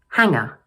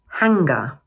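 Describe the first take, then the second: First: The G in the middle is soft. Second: The G in the middle is hard. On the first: The speaker calls it right. "we need to pronounce the G more softly" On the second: The speaker calls it wrong. "My students often pronounce this word as hanger"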